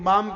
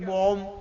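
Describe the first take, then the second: First: The vowel is an open 'ah' sound. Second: The vowel is a rounded 'oh' sound. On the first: This is the local Kathiawadi way of speaking. "આપણે કઈ બામ ક્યાં છે" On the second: This is how people from the other region speak. "કે બોમ ક્યાં"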